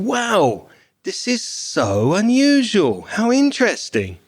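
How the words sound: It is said with lively, enthusiastic intonation. The speaker likes the gift. "he didn't say he liked it, but his intonation did"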